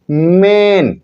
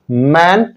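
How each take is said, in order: First: मेन with a long, held ए; long A sound. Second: मैन with an open ऐ as in "cat"; short word without E. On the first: Teacher reading the word with final E, मेन stretched long. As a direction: draw out the ए in मेन. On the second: Teacher reading the word without final E, मैन with open vowel. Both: Shown as a demonstration. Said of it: "हम ए का उच्चारण ए करते हैं".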